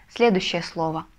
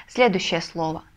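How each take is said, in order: The two takes are said the same way.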